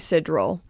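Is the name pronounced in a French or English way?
English. The name is said with English Canadian pronunciation. The speaker calls it wrong. "me and my disgusting Canadian accent"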